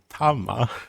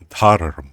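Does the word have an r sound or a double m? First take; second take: double m; r sound. First: The word has a double m, no r sound. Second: The word has an r sound before the m. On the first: This is the Pali form. "in Pali you say" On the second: This is the Sanskrit form. "in Sanskrit you say"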